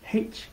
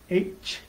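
First: The letter name is said the British way. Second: The letter name is said the American way. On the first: "if you were in England, you would say H" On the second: "since we're here in the U.S., we say H"

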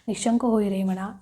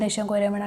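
First: Each word is said slowly and deliberately. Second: The phrase is rushed out quickly. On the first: The speaker calls it right. "अशा टोनमध्ये म्हणायचं. प्रत्येक शब्द चावून चावून वाचायचा" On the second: The speaker calls it wrong. "पटापटा पटापटा म्हणायचं नाही ... असं नाही"

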